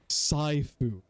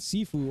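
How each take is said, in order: First: The first syllable sounds like 'sigh'. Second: The first syllable sounds like 'see'. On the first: The speaker calls it wrong. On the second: The speaker calls it right.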